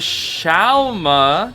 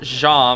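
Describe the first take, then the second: First: The name is said as 'Xiaoma'. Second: The name is said as 'Jam'. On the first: The speaker calls it right. "apparently the name is pronounced Xiaoma" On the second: The speaker calls it wrong. "Zeus just pronounced it as Jam, so I pronounce it as Jam"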